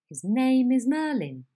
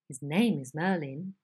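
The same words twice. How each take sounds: First: The head stays high without gradually falling. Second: The head starts high and gradually falls.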